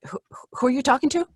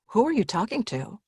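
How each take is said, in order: First: It sounds confused and hesitant, with a stammered start. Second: It sounds gentle and concerned, as to a confused parent.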